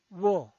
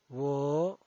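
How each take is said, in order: First: The pitch falls from high to low. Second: The pitch rises from mid to high. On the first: "El cuarto tono es un tono bajado" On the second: "El segundo tono es ascendiente"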